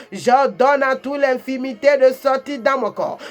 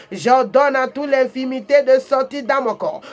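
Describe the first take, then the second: Both takes have the same delivery.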